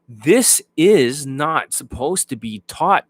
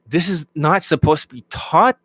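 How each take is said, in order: First: The words are slow and clearly spaced apart. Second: The words are fast and bunched together. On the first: The speaker calls it right. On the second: The speaker calls it wrong.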